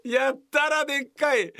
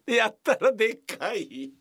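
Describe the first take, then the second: First: やったらでっかい higher and louder; emphatic repeat. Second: Said in the usual way. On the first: Shown as a demonstration. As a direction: hit やったらでっかい harder the second time.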